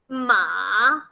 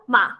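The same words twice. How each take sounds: First: The pitch dips down, then rises. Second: It is short and light, with no tone. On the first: It means horse. "first down, then up" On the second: It marks a question. "No tone whatsoever, no intonation, no high pitch"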